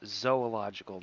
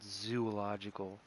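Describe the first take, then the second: First: The first syllable sounds like 'zoh'. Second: The first syllable sounds like 'zoo'. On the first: The speaker calls it right. "it's zoological" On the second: The speaker calls it wrong. "not zoological. You go to a zoo"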